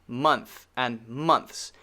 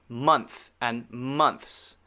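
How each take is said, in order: The two takes are said the same way.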